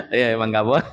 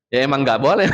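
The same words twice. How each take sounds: First: Chuckling as you say it again; laughing. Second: Said in the usual way. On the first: Real, not acted. Preacher repeating the answer to the audience, laughing. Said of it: "repeats answer laughing". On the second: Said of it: "answers audience question".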